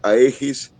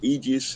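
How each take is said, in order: First: It is read out letter by letter, Spanish-style. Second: It is said with an English-style pronunciation. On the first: This is how the name is written. "se escribiría Aegis" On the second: This is how the name is actually pronounced. "se pronunciaría Aegis"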